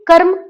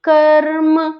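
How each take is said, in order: First: The word is said at normal speed. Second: The word is said slowly and drawn out.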